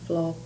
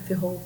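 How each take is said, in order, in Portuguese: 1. O nome é falado como uma palavra só, flop. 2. O nome é falado como eff seguido de hop. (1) "Muita gente não sabe pronunciar" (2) "mas é F-Hop"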